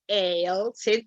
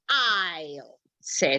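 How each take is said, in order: First: The first word is said like 'ale'. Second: The first word is said like 'eye-l'. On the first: The speaker calls it wrong. "it's not ale, sit" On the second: The speaker calls it right. "but it's aisle, sit"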